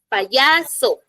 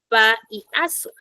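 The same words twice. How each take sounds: First: The y sounds like a consonant. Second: The y sounds like the vowel i. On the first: The speaker calls it right. "no va a ser lo mismo cuando yo, por ejemplo, use la palabra payaso" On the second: The speaker calls it wrong. "Y yo no digo payaso, o sí. No, no"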